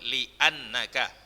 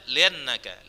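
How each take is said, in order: First: A glottal catch separates li from annaka. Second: The words run together without a glottal catch. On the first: The speaker calls it right. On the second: The speaker calls it wrong.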